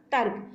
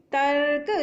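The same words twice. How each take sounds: First: Said in the usual way. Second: तर्क drawn out with a held r; r sound in तर्क shown. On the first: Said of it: "तो ये शब्द बन गया हमारा". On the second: Shown as a demonstration. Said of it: "ता के बाद रा की साउंड आ रही है".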